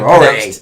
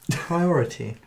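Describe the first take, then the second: First: The T sounds are dropped or swallowed. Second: The T sounds are crisply pronounced. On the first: "I was about to say we can pronounce our T's, but that clearly isn't true" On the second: "I can pronounce them if I desire"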